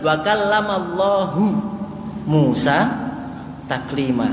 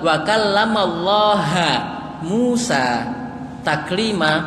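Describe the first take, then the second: First: The word Allah ends with a u vowel. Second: The word Allah ends with an a vowel. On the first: God gave commands to Moses. The speaker calls it right. "Perhatikan wa kallamallahu Musa taklima" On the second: Moses gave commands to God. The speaker calls it wrong. "Ini cuma beda hu sama ha. ... salah baca harokat"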